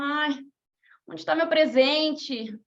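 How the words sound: It is said with weary discouragement.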